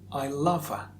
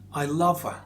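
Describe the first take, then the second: No difference in how they are said.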